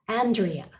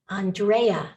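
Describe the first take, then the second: First: The stress is on the first syllable. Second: The stress is on the middle syllable. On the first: "there's an emphasis on the first syllable" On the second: "they put an emphasis on the middle syllable"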